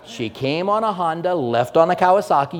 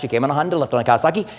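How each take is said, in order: First: The phrase is spoken at a normal pace. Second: The phrase is spoken very fast.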